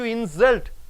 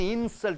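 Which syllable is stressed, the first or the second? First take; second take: second; first. First: The stress is on the second syllable. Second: The stress is on the first syllable. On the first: It is used as a verb meaning to insult somebody. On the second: It is used as a noun.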